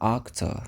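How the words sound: The first vowel sounds like 'o'. "Você também vai escutar octo, se você estiver ali na, no, no mais interior da, da Europa"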